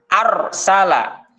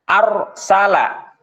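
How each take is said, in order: No difference in how they are said.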